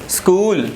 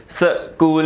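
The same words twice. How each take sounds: First: स्कूल said as one beat, skool; one unbroken syllable. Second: स्कूल split as suh-kool; wrongly broken word. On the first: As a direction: run स्कूल together without a break. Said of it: "single pronounce हो रहा है". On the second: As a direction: break स्कूल after an added short vowel, suh, kool. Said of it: "नहीं पढ़ रहे हम इसको". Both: Shown as a demonstration.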